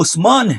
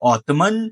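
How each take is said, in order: First: The name is said with an s sound. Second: The name is said with a t sound. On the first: The speaker calls it right. "वो उस्मान है" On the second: The speaker calls it wrong. "इन बिगड़े अल्फाजों को ओटमन नहीं"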